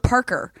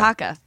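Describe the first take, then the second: First: The word ends with a pronounced r sound. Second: The word ends without an r sound. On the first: "He thought it was a parker" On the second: "say it with a Boston accent, and it's a parka"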